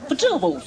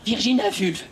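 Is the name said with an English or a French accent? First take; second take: English; French. First: The name is said with an English accent. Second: The name is said with a French accent. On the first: The speaker calls it right. "il y en a qui vont me dire elle fait son accent anglais" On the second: The speaker calls it wrong. "on ne dit pas Virginia Vulve, qui sonne mal"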